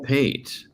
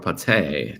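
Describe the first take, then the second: First: The name is said with an English pronunciation. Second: The name is said with a European pronunciation.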